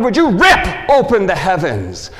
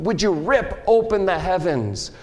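First: Loud plea. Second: Said in the usual way. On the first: Acted. Loud first cry.

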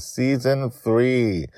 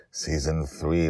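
First: Slow, stretched season title; drawn-out announcement. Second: Said in the usual way. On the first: Acted. Host announcing the new season slowly. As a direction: savor each word like a trailer.

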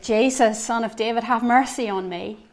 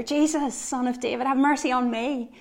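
First: A louder retold cry for mercy; mock shout. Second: Higher and louder retold plea; louder mock shout. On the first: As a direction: call out to Jesus, raised but held back. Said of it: "Bartimaeus shouted". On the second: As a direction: cry out harder, pitch up on Jesus. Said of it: "he shouted all the louder".

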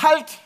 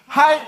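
First: Sharp high shouted Halt; a loud, high stop command. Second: Loud high shouted Halt; loud, high group stop cry. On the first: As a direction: bark out Halt!. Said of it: "Du schreist". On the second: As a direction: call Halt! out with everyone. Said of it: "Alle mal bitte". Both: Shown as a demonstration.

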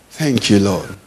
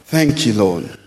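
No difference in how they are said.

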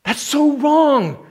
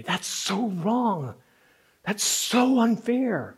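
First: High, loud, slow outcry; acted indignation. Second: Slow, pained protest; acted indignation. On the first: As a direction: cry out the injustice slowly. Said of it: "you're angry about it". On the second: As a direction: draw out the outrage slowly. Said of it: "This indignation rises in you".

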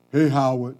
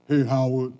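First: Second call, louder and more insistent. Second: First call from across the street. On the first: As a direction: call again so he finally turns around. Stranger calling again, louder. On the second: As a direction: catch his attention from a distance. Stranger calling across street. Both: Retold or imitated.

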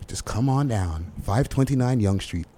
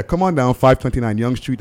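First: Soft, laid-back radio ad read; commercial voice. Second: Louder, punchier radio ad retake; commercial voice. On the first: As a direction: pitch the place like a mellow ad. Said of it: "That's my, that's my commercial voice". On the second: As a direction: sell it harder, like a real ad. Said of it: "This commercial voice needs work". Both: Shown as a demonstration.

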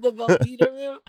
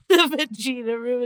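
First: Said in the usual way. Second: "vagina" with an EE in the middle; vagina as va-JEE-na. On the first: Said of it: "instead of". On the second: Shown as a demonstration. Joking about the room's name, "vagina" said va-JEE-na. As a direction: say "vagina" to rhyme with Gina. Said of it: "instead of the vagina room".

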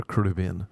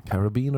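First: "Caribbean" as kuh-RIB-ee-un, stressing RIB; stress on second syllable. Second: "Caribbean" as ka-rib-BEE-an, stressing BEE; stress on third syllable. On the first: Offering the other way, "Caribbean" stressed on RIB. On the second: Asking which way you say it, "Caribbean" stressed on BEE. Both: Shown as a demonstration. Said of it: "What do you say?".

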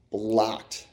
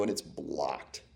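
First: Said in the usual way. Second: Much softer, slow, dropping low; deflated. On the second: Real, not acted. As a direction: let the bad news sink in. Climax of the losing story.

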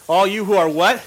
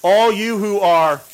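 First: All you who are what? with a rising what, inviting an answer; prompting question. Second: Said in the usual way. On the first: Shown as a demonstration. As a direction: ask the crowd to finish it, lifting what.

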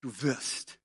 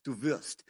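First: "du" punched, "wirst" falls away; "du" carries the whole weight, "wirst" quiet; stress on du. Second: "wirst" hit as the key word, "du" left light; "du" unstressed, weight on "wirst"; stress on wirst. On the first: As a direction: lean hard on "du" in "du wirst". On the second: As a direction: lean on "wirst" in "du wirst". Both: Shown as a demonstration. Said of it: "Die Betonung ist du".

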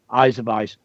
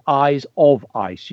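First: Said in the usual way. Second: Slow reading with "of" picked out; stress on "of". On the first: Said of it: "I like the way you've used the semicolon". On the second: Shown as a demonstration. Teacher corrects a pupil's word, stressing "of". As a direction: lean on "of" in "eyes of ice". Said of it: "You need of, not if".

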